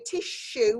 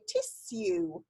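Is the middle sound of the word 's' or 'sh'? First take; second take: sh; s. First: The middle consonant is a 'sh' sound. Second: The middle consonant is a plain 's' sound. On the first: This is the everyday way of saying it. "quite often we say tissue with a sh in the middle" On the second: This is the posh, proper way of saying it. "if you're the queen and you talk properly, you say tissue"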